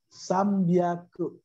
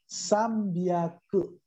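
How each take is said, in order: First: The second part starts with a b sound. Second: The second part starts with a b sound.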